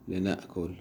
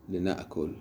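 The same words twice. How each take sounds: No difference in how they are said.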